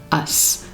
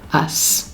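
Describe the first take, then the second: First: The suffix is said as one syllable. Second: The suffix is said as one syllable.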